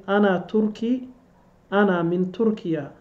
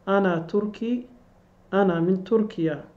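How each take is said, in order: Both takes have the same delivery.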